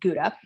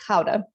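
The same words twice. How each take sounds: First: The word is said with an American pronunciation. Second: The word is said with a Dutch pronunciation. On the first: "in America, we pronounce this Gouda" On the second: "in Holland, they pronounce it Gouda"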